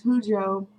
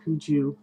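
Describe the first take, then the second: First: Hujo ending on a long O; own pronunciation. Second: Huju ending in "joo"; alternate pronunciation. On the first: Vlogger introducing the name her own way, HOO-joh. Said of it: "I say Hujo". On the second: Vlogger giving what other people call it, HOO-joo. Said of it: "people also called". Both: Shown as a demonstration.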